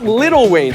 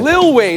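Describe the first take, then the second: First: The first word is said with two syllables. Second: The first word is said with one syllable. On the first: The speaker calls it wrong. "Stop saying it like that" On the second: The speaker calls it right. "Lil Wayne, not Little Wayne"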